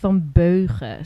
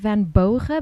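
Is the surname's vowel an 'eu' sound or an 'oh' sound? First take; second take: eu; oh. First: The surname's vowel is a rounded 'eu' sound. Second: The surname's vowel is a plain 'oh' sound. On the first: The speaker calls it right. "but it's actually Van Beugen" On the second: The speaker calls it wrong. "so you say Van Bogen"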